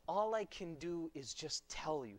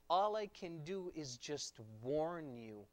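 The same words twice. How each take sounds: First: "tell" set out as the word being rejected; stress on TELL. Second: Slow line with "warn" drawn out; stress on WARN. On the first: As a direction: lean on "tell" as the wrong word. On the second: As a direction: stretch "warn" as the word that matters. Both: Shown as a demonstration. Contrasted wrong and right wording.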